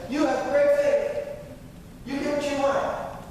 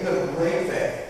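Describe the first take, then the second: First: Jesus praising her. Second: Said in the usual way. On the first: Retold or imitated. Jesus praising the Canaanite woman's faith, exultant. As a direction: proclaim it like a blessing.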